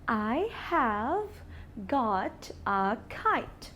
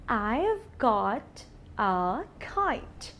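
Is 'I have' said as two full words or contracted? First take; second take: full words; contracted. First: I have is said as two full words. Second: I have is squeezed into one short syllable. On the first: "I've is a contraction of I have" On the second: "I've is a contraction of I have"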